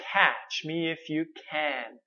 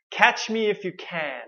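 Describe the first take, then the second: First: "Catch" said slowly with the mouth wide open; slow open-mouth demo. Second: Said in the usual way. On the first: Shown as a demonstration. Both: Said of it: "So notice how big my mouth opens".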